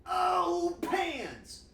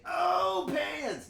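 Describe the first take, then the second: First: High, loud gut shout of oh pans; excited cry. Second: High, loud shout from the belly; gut shout. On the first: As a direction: belt it out from the gut. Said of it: "can you please say in the chat". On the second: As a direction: yell pans from the gut. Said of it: "You have to say it with your gut". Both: Shown as a demonstration.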